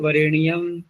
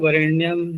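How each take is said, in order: First: An extra i vowel splits the n and y. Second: The n and y are joined without a vowel. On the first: "वो क्या बोलेंगे, वरेणियम" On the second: "बच्चों को बुलवाओ वरेण्यम"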